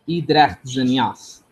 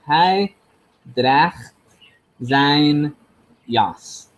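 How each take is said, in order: First: The pronoun is reduced and unstressed, without h. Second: The pronoun is said in full with stress. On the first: The speaker calls it right. "I know that it's" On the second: The speaker calls it wrong. "according to the to the spelling and the recording, I should say something like"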